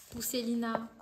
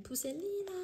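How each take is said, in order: First: Said in the usual way. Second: Pousselina squealed much higher in a new voice; delighted squeal. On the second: Real, not acted. Reads a title, then squeals it.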